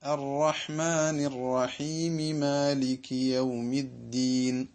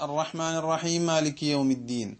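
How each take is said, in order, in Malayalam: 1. ചേരുന്ന ഭാഗത്ത് രണ്ട് വേറിട്ട മീം ശബ്ദങ്ങൾ കേൾക്കുന്നു. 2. ചേരുന്ന ഭാഗത്ത് ഒരു മീം ശബ്ദം മാത്രമേ കേൾക്കുന്നുള്ളൂ. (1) "ഇങ്ങനെയാണ് അവിടെ ചേർത്തി വായിക്കേണ്ടത്" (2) "നമ്മുടെ ഫാത്തിഹയിൽ നിന്ന് ഒരക്ഷരം അതുകൊണ്ട് തന്നെ നഷ്ടപ്പെട്ടു"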